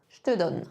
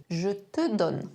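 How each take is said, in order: First: "Je te donne" as zh-t-donne, E of te dropped; "te" joined into "donne"; spoken French contraction; contracted je te. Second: Said in the usual way. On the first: Shown as a demonstration. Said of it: "Comment on le contracte?". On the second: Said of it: "ajouter un pronom au milieu".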